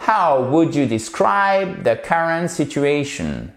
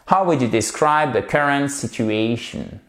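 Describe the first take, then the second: First: Slow, stresses on "describe", "current", "situation"; careful full-phrase model. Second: Said in the usual way. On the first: Shown as a demonstration. Teacher repeating the whole sentence, slow careful model. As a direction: spell out the phrase slowly, falling at the end. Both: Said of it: "Reprenons cette phrase en entier".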